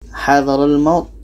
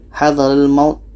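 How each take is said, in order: The two takes are said the same way.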